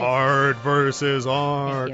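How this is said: It is said in a funny put-on voice.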